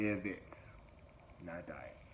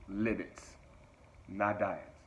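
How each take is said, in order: First: Said in the usual way. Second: Firm, punchy slogan; slogan, emphatic. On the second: Shown as a demonstration. Coach to viewers, stating the slogan firmly. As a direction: hit live and not hard. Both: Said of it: "Say it with me".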